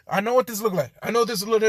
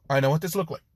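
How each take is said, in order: First: High, loud frantic protest; panicked explaining. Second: Said in the usual way. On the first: Acted. Izuku caught out by Jean, loud panicked explanation.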